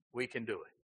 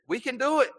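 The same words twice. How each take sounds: First: Dropped, much softer "We can do it"; soft deflated echo; quiet echo. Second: High, bright mock boast of "We can do it"; mock-eager high boast. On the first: Acted. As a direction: let the boast sink to a hush. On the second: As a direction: play the eager disciples, pitch way up. Mocking the disciples' boast.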